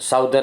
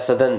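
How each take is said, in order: First: The first vowel sounds like 'ow' in south. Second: The first vowel sounds like 'uh' in sun. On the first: The speaker calls it wrong. "સાઉધર્ન આપણે બોલીએ" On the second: The speaker calls it right. "એનો ઉચ્ચાર સધન થાય"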